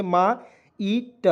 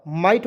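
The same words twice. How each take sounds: First: "मा ईट" drawn out very slowly as two separate parts, मा then ईट; split syllables. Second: Said in the usual way. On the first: Shown as a demonstration. Teacher sounding out the word for students, very slow split syllables. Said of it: "म में आ की मात्रा जोड़ेंगे". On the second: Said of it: "might हो गया ना जी".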